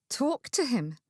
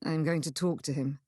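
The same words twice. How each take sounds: First: Disbelieving echo of TALK TO HIM; stunned, questioning repeat; incredulous. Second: Said in the usual way. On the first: Acted. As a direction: throw it back in astonishment. Incredulous echo, mouth dropped open.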